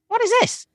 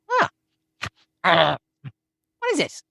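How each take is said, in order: First: It is read plainly, without hesitation. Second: It is read hesitantly, with puzzled fillers first.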